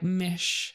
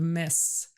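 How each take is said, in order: First: The final sound is a slushy SH-like hiss. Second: The final sound is a clear, sharp S. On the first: The speaker calls it wrong. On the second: The speaker calls it right.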